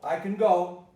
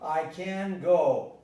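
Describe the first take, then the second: First: The word go carries the stress. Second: The word can carries the stress. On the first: The speaker calls it right. "I stress go" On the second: The speaker calls it wrong. "you might go"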